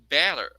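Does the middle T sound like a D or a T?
D. The middle T sounds like a quick D.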